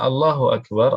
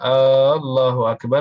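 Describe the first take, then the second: First: The first vowel of Allah is short. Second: The first vowel of Allah is drawn out long. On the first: It states that God is great. The speaker calls it right. "Allah Maha Besar" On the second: It asks whether God is great. The speaker calls it wrong. "apa artinya? ... Nanya"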